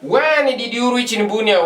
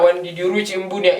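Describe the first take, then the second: First: Pitched up and punched on when; emphatic model. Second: Said in the usual way. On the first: Shown as a demonstration. Teacher restarts the example with a raised, emphatic question. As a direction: lift it and stress when. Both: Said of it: "forgive me for that".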